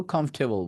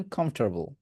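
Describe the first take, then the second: First: কমফোর্টেবল as "KUMF-te-bol", no r; recommended comfortable. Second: কমফোর্টেবল with an r, "kumf-TER-bol"; American "kumf-tar-bol"; American comfortable. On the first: Teacher recommends this to students, r-less "kumf-te-bol". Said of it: "আমি বলবো কমফোর্টেবল বলেন". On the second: Teacher shows students how Americans say it, with r in comfortable. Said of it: "আর যদি American বলছেন". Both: Shown as a demonstration.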